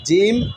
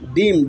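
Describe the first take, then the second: First: It begins with a j sound. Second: It begins with a d sound. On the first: The speaker calls it right. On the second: The speaker calls it wrong.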